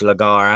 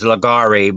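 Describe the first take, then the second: First: The name ends with a consonant sound. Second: The name ends with an extra vowel sound. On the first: The speaker calls it right. "but actually it's Lagar" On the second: The speaker calls it wrong. "some people pronounce that, that name as Lagari"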